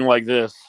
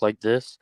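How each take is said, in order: First: It is said very loudly, almost shouting. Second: It is said at a normal, moderate volume. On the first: "could not control the volume of his voice" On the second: "every time he would talk like this"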